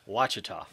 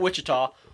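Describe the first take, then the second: First: The first syllable sounds like 'wash'. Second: The first syllable sounds like 'wish'. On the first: The speaker calls it right. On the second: The speaker calls it wrong.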